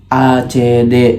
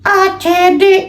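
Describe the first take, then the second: First: It is said in the speaker's ordinary voice. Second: It is said in a put-on puppet character voice.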